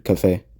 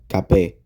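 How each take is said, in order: First: The middle consonant sounds like an F. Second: The middle consonant sounds like a P. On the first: This is the English pronunciation. "rather than cafe" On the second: This is how Korean adapts the word. "this would sound more like cafe"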